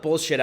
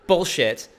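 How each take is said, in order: First: Said in the usual way. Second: A little louder, deliberate and emphatic. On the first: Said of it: "I said bullshit". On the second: Real, not acted. Speaker repeating his swear on purpose, louder. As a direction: repeat the swear with more punch. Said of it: "I will say it louder".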